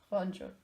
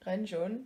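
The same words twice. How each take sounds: First: Renjun with an open O-like first vowel; O-sound pronunciation. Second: Renjun with a short E, as in "wren"; E-sound pronunciation. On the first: Fan settling on a pronunciation, [name] said with an O sound. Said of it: "it's pronounced like an O". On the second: Fan showing their usual habit, [name] said with a short E. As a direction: say Renjun with "ren" rhyming with "pen". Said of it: "I would usually say". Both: Shown as a demonstration.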